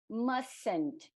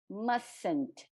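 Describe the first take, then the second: First: The middle t is dropped, sounding like 'mussn't'. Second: The middle t is dropped, sounding like 'mussn't'.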